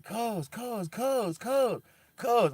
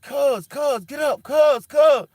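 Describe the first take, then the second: First: Calling out, building. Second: Cuz and get up yelled high and very loud; frantic shouting. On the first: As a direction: keep calling his name until it turns into a yell. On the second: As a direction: scream at him to wake up. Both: Retold or imitated. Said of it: "I was screaming at him".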